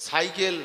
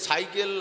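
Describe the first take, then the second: Both takes have the same delivery.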